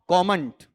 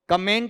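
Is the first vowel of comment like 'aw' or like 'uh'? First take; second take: aw; uh. First: The first vowel is an open 'aw' sound. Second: The first vowel is a short 'uh' sound. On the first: The speaker calls it right. "ये भी बहुत लोग गलत बोलते हैं आपका उच्चारण में" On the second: The speaker calls it wrong. "कमेंट नहीं होता है"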